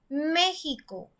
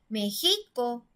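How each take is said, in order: First: The stress is on the first syllable. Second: The stress is on the middle syllable. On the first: The speaker calls it right. "si pronunciamos más fuerte la antepenúltima sílaba, diría" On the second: The speaker calls it wrong. "vamos a probar si está en la penúltima sílaba"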